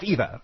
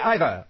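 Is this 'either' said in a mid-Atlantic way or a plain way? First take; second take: plain; mid-Atlantic. First: It is said with a plain everyday pronunciation. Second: It is said with a mid-Atlantic pronunciation. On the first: This is how the announcer would not talk. "not either" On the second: This is how the old-timey announcer talks. "He's the sort of person who would say either"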